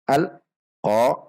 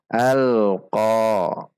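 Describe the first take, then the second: First: There is a break between al and qa. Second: Al flows straight into qa without a break. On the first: The speaker calls it wrong. "Tidak dibaca" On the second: The speaker calls it right. "tidak terputus antara lam sukun dengan huruf qaf"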